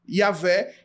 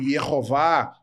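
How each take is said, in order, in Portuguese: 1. Pronuncia-se em duas sílabas, ya-VEH. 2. Pronuncia-se em três sílabas, ye-ho-VAH. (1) "a pronúncia correta seria Iavé" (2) "Já foi aceitável o termo Iehová para o tetragrama, mas hoje não é mais"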